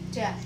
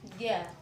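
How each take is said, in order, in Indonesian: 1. Konsonan itu dibuat dengan ujung lidah. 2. Konsonan itu dibuat dengan tengah lidah.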